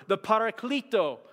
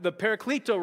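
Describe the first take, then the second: First: "Paraclito" in a slip into a Hispanic accent; accidental Hispanic-accented "Paraclito". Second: Said in the usual way. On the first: Real, not acted. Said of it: "that was a Hispanic accent". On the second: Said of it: "that was just wrong".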